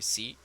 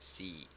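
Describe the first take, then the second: First: The vowel is short and clipped. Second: The vowel is long, with spread lips. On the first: The speaker calls it wrong. "en vez de decir sí" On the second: The speaker calls it right. "va a decir sí"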